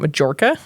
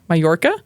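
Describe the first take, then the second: First: The middle consonant is a J sound. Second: The middle consonant is a Y sound. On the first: The speaker calls it wrong. "Not Majorca. I was making pronounce it with a J like it's spelled" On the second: The speaker calls it right. "There we go"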